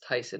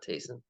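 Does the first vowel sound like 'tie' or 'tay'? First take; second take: tie; tay. First: The first vowel sounds like 'tie'. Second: The first vowel sounds like 'tay'. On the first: The speaker calls it right. "it's Tyson" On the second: The speaker calls it wrong. "not Tayson"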